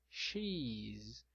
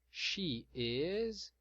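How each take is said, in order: First: Words merged into one short syllable. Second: Two separate words, each fully pronounced. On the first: "Na forma contraída" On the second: "na forma extensa"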